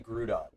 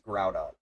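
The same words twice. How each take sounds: First: The first syllable does not sound like 'ground'. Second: The first syllable sounds like 'ground'. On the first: The speaker calls it wrong. "I used to say Groudon" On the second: The speaker calls it right. "but it's Groudon. Like ground"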